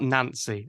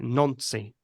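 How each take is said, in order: First: The name is given an English pronunciation. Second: The name is given a French pronunciation. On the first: The speaker calls it wrong. "it's spelled Nancy. I'm sure you know it's not pronounced like that" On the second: The speaker calls it right. "it's probably pronounced something like Nancy"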